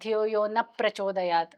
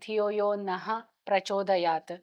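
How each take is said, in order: First: No breathy h sound follows 'na'. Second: A breathy h sound follows 'na'. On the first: It means no. The speaker calls it wrong. "ನಃ ವಿಸರ್ಗ ಹೇಳಕ್ಕೆ ಹೋಗಲ್ಲ" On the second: It refers to us. The speaker calls it right. "ನಹ ಅಂದ್ರೆ ನಮ್ಮನ್ನ"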